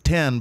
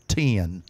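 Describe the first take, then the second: First: The word is said as one short syllable. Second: The word is drawn out into two syllables. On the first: The speaker calls it wrong. "It's not ten" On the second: The speaker calls it right. "the next one's also two syllables"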